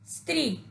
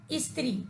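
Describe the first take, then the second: First: स्त्री said softly, starting straight on स with no vowel before it; soft, clean स्त्री with no leading ई; correct pronunciation. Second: स्त्री said as इस्त्री, with an added ई sound before स; an extra इ sound before स्त्री; wrong pronunciation. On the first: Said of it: "इसका शुद्ध उच्चारण". (शुद्ध उच्चारण: स्त्री, बिना ई के, धीमे स्वर में) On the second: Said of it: "कुछ लोग ई का प्रयोग करते हैं". (गलत उच्चारण: स्त्री को इस्त्री बोलना) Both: Shown as a demonstration.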